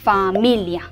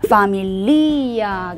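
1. 강세는 mi 음절에 있어요. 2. 강세는 li 음절에 있어요. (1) "파밀리아 하고 이를 올려 읽으면 돼요" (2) "파밀리아가 아니고요"

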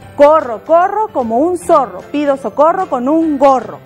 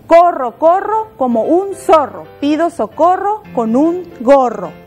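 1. Se dice todavía más rápido. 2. Se dice un poco más rápido. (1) "Un poquito más rápido" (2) "Un poquito más rápido"

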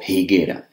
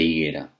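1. La palabra empieza con una h aspirada audible. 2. La palabra empieza directamente con el sonido de la vocal. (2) "en lugar de"

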